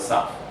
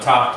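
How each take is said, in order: First: The word begins with an s sound. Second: The word begins with a t sound. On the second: "changes from a top"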